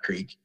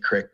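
First: The word has a long vowel, like 'creek'. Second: The word has a short vowel, like 'crick'. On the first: This is a way the speaker does not say the word. "not creek" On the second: This is how the speaker says the word locally. "I say creek"

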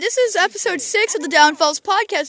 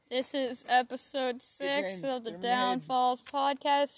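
First: The voice sounds cheerful and upbeat. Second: The voice sounds flat and unhappy. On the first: The speaker calls it right. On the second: The speaker calls it wrong.

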